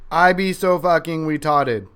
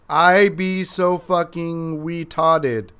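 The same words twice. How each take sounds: First: It is said at a faster pace. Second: It is said at a slower pace.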